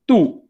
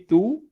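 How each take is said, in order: First: The word is said with strong stress. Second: The word is said with weak stress. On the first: "we stress on that accent" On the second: "If it was without an accent"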